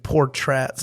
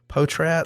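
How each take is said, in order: First: The first syllable has an R sound. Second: The first syllable has no R sound. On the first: The speaker calls it wrong. "That it wasn't Portrats" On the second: The speaker calls it right. "how did you say it again?"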